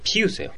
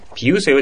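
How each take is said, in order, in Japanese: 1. 最初の子音には息の破裂があります。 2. 最初の子音には息の破裂がありません。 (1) "息が出るし" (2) "ピウセヨじゃなくて、"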